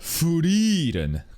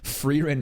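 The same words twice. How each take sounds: First: The name is pronounced a non-English way. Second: The name is pronounced the English dub way. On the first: "Just love saying it like that" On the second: "is one English dub"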